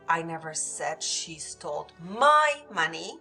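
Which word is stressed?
my. The word my carries the main stress. It was someone else's money. "She might have stole someone else's money, but not mine"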